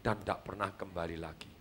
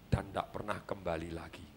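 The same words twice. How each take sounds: First: Soft and low, "kembali lagi" fading into silence; a speaker demonstrating a sad punchline before a pause; hushed dramatic ending. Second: Much softer and lower, letting "kembali lagi" fall away; a father letting the sad ending sink in before a long silence; hushed dramatic ending. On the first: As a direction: show the audience how to land the line quietly. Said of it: "kasih diem tiga puluh detik". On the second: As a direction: drop the voice to almost nothing for the tragic end. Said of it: "Ini cara mendeliver". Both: Shown as a demonstration.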